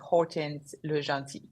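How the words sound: The name is said with American pronunciation. "in America, you can say"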